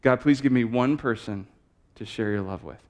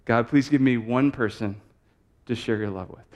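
First: Each word placed slowly, stress on please; slow deliberate prayer. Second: Each word placed slowly, stress on give; slow deliberate prayer. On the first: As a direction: speak it like a dictation, please lifted. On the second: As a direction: repeat it calmly, give lifted. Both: Shown as a demonstration. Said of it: "I'll say it one more time".

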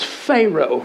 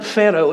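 First: Pharaoh said slowly as FAY-roh with a long ay; Texan pronunciation. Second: Pharaoh said as FEH-roh with a short e and a tapped r; correct pronunciation. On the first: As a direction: Pharaoh drawn out as FAY-roh, Texas style. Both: Retold or imitated. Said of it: "I'm like".

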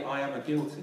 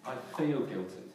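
First: Said in the usual way. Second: "I feel guilty" with "feel" weighted; right phrasing. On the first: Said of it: "You never say". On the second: Shown as a demonstration. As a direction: stress on feel. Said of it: "What do you say?".

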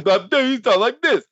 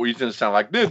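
First: High, slowed-down silly boss voice; made-up caricature, pitched high and slow; Jim Herd. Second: Said in the usual way. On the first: Shown as a demonstration. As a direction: put on a goofy high voice, drawn out. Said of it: "That's my impersonation of Jim Herd". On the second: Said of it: "I don't even know what Jim Herd sounds like".

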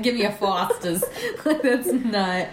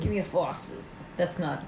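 First: Put-on Boston accent again, laughing. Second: Put-on Boston accent, not Australian; failed Aussie, pure Boston. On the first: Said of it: "not an Australian accent". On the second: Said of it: "definitely a Boston accent".

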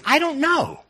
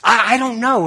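First: High, exaggerated shrug of a voice; playful high I-don't-know; mock bewildered. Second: Said in the usual way. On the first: Real, not acted. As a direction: toss it up high like a helpless shrug. Repeats the phrase, pitched up.

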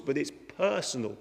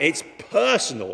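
First: Said in the usual way. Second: "personal" said loud and punched; stress on personal. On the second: Shown as a demonstration. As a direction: hit the word "personal" hard.

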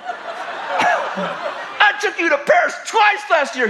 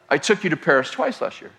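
First: Much higher, slow, laughing mock yell. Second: Said in the usual way. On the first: Imitating the husband yelling back at his wife, slow and laughing. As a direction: shout it slowly, cracking up. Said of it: "he yells". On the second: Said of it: "That's his response to".

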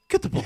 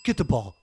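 First: Much higher, louder excited call to a dog; dog-game call. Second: Said in the usual way. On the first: Pretend. Owner urging the dog to fetch, high excited call. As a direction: hype the dog up like fetch time.

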